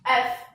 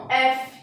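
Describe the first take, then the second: First: "F" dito "éf", sem vogal final; pronúncia em inglês. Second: "F" dito "éfi", com "i" final; pronúncia em português. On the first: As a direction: diga "F" numa sílaba, à inglesa. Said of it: "E no inglês". ("F" como "ef", em inglês) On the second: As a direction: diga "F" como "éfi", à portuguesa. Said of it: "reparem o som". ("F" em português, duas sílabas) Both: Shown as a demonstration.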